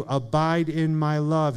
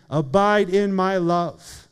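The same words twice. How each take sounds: First: Said in the usual way. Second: Slow and deliberate, leaning on each word; a personal plea, drawn out; slow earnest appeal. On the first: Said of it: "quoted from the verse". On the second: Shown as a demonstration. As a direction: press the invitation home to one listener, slowly. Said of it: "So Alex, Jesus is saying".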